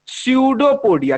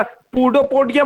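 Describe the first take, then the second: First: स्यूडोपोडिया with the p silent, said as syoo-do-po-dee-ya; स्यूडोपोडिया spoken clearly with a silent p; correct pronunciation. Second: पूडोपोडिया said the wrong way, as a student might, with the p sounded; पूडोपोडिया as the wrong reading to avoid; wrong pronunciation. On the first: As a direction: model the right स्यूडोपोडिया for the class, no p sound. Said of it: "पी silent होता है". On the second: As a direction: deliberately mispronounce पूडोपोडिया as a warning example. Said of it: "पी स्यूडोपोडिया मत पढ़िएगा". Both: Shown as a demonstration.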